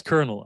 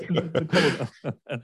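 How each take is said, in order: First: Colonel said as KERNEL; correct pronunciation. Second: Colonel as COLLO-NO, through laughter; slow, higher, amused "collo-no" for colonel; mistaken spelling pronunciation. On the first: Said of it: "Yeah, that's colonel". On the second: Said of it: "there's no R". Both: Retold or imitated.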